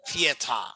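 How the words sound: It is said in a European way. "especially in Europe, they pronounce like theater"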